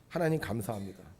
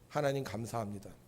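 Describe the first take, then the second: No difference in how they are said.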